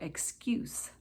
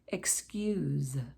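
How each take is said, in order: First: The word ends with a hissing S sound. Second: The word ends with a buzzing Z sound. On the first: It is used as a noun. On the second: It is used as a verb.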